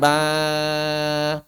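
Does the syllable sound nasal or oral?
nasal. The vowel comes out through the nose, sounding nasal. The speaker calls it wrong. "jangan diucapkan ba"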